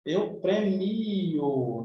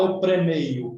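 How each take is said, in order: First: "premio" very slow, long stressed MI; drawn-out correct form. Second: "premeio" with an ei glide, louder; incredulous mispronunciation. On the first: Teacher correcting the verb form, drawn-out "premio". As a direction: stretch the I in "premio", no ei glide. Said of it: "Não". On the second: Teacher mocking a wrong verb form, incredulous "premeio". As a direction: say "premeio" with a stressed EI, questioning it. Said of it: "Quem é que fala". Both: Shown as a demonstration.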